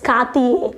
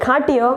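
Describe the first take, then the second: First: Cartier the French way, 'kar-tee-ay'; correct pronunciation. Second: Cartier read as spelt, 'kar-tee-er'; wrong pronunciation. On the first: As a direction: slowly end Cartier in 'ay', silent r. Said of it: "but it's Cartier". (Cartierનો સાચો ઉચ્ચાર, 'કાર્તિયે') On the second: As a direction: end Cartier in an English 'er'. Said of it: "it's look like Cartier". (Cartierનો ખોટો ઉચ્ચાર, 'કાર્ટિયર') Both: Shown as a demonstration.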